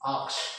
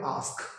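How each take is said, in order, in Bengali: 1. k ধ্বনিটি s ধ্বনির আগে আসে। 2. s ধ্বনিটি k ধ্বনির আগে আসে। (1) "নট আক্স" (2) "এটা হবে আস্ক"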